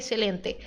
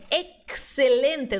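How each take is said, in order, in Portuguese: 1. O x é pronunciado sem som de ks. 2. O x é pronunciado como um ks claro. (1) "não é excelente" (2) "Lembra de K S"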